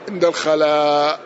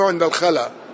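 First: The final vowel of the last word is long. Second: The final vowel of the last word is short. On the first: The speaker calls it right. "هو بالمد" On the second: The speaker calls it wrong. "ليس بالقصر"

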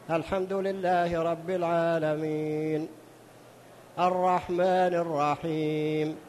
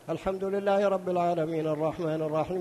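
First: It is recited slowly, pausing after each verse. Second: It is recited quickly without pausing between verses. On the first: The reader takes time to understand each verse. The speaker calls it right. "اقرأ مثل قراءة الرسول عليه الصلاة والسلام... يقف عند آخر كل آية" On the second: The reader is rushing to finish. The speaker calls it wrong. "بعض من الناس إذا صلى قال هكذا... لماذا تستعجل يا أخي؟"

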